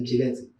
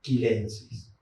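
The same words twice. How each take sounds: First: "chilensis" with Spanish CH; soft CH opening on "chilensis"; CH as in Chile. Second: "chilensis" said as "kilensis"; hard K opening on "chilensis"; Latinized "chilensis", K for CH. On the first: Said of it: "no podemos transformar la transformación". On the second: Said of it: "Entonces tenemos que pronunciar". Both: Shown as a demonstration.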